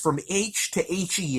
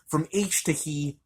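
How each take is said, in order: First: The last part is spelled out as letters. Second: The last part is said as the word he. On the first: The speaker calls it right. "as in helium" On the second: The speaker calls it wrong. "I'm pronouncing that wrong"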